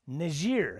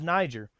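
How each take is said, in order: First: It is said with a French pronunciation. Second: It is said with an American pronunciation. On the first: It acknowledges the country's French colonial past. The speaker calls it wrong. "When did the pronunciation of Niger become Niger?" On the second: It is the familiar American way of saying it. The speaker calls it right. "I always thought it was Niger"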